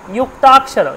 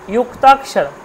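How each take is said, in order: First: The word begins with a j sound. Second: The same.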